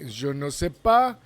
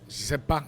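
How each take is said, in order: First: All four syllables are pronounced fully. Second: The ne is dropped, leaving three syllables. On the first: "usually people we will say je ne sais pas" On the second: "and I say uh, je sais pas"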